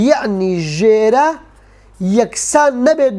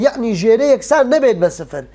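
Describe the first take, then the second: First: یەعنی ژێرە drawn out slowly, each word stretched; slow emphasis. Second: Said in the usual way. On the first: Shown as a demonstration.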